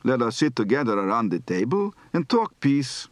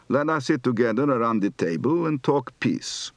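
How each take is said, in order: First: Yiddish tune with the peak on "talk"; Yiddish intonation. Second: Markedly flat Polish Yiddish intonation. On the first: Shown as a demonstration. Teacher shows another intonation, not Begin's, Yiddish lilt. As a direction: rise and fall around "talk" in Yiddish style. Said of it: "Here's one possible intonation pattern". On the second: Retold or imitated. Teacher imitates Begin's flat television sentence, Polish Yiddish accent. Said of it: "which was markedly flat".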